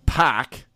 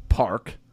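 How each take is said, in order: First: Pac, park said without its R; dropped R. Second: Said in the usual way. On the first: Shown as a demonstration. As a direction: say Pac as Massachusetts says park. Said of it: "is pronounced Pac". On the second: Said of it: "drop R's".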